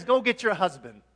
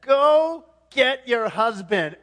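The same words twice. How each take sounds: First: Loud, brisk command; raised-voice instruction at normal pace; Jesus. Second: Loud, slow, weighty command; abrupt forceful order, drawn out; Jesus. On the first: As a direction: call out the order firmly. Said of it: "He says". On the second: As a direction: boom out each word deliberately. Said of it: "Jesus shifts gears and says". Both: Acted.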